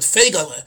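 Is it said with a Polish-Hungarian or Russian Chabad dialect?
Russian Chabad. It is said in a Russian Chabad Yiddish dialect.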